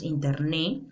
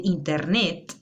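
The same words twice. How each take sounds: First: "internet" without the final t, as "interné"; "internet" ending on an open stressed é; common mispronunciation. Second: Said in the usual way. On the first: Shown as a demonstration. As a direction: drop the last t of "internet". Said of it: "decimos internet". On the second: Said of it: "en vez de decir internet".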